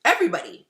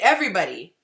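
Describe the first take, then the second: First: The ending sounds like 'buddy'. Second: The same.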